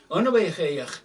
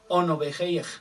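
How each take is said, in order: First: The name begins with a rounded 'o' vowel. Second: The name begins with a rounded 'o' vowel.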